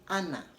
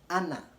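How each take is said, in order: Both takes have the same delivery.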